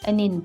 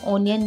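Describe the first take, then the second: First: The first vowel sounds like 'a'. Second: The first vowel sounds like 'o'. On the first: The speaker calls it right. "बल्कि अनियन बोलते हैं" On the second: The speaker calls it wrong. "ओनियन नहीं"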